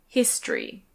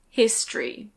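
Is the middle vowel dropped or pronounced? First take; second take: dropped; dropped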